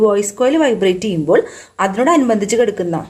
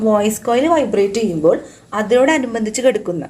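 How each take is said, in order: Both takes have the same delivery.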